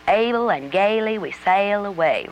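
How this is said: It is said in a Southern accent.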